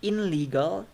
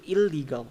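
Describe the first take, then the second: First: "In legal" with a clear n; louder "In legal", n kept before l; unassimilated IN LEGAL. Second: "illegal" with a long l; "il-legal", n changed to l; assimilated ILLEGAL. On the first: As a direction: sound the n in "In legal". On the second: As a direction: hold the l in "illegal". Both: Shown as a demonstration. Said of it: "So the ne turns to le".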